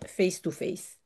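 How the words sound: It is said with an English pronunciation. The speaker calls it right. "on va le prononcer à l'anglaise"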